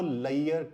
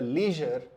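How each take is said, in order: First: The middle consonant is a 'y' sound. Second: The middle consonant is a 'zh' sound. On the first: The speaker calls it wrong. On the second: The speaker calls it right.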